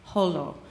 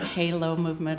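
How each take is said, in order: First: The first syllable sounds like holl. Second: The first syllable sounds like hay. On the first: "or Holo" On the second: "it's not Halo movement"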